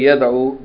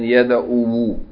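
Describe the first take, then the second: First: The word ends without an extra final vowel. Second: The word ends with an extra final vowel. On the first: This is the usual form with the final vowel dropped. The speaker calls it right. "it's more natural to say Yada'u" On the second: This is the original form with the final vowel kept. The speaker calls it wrong. "than Yada'u"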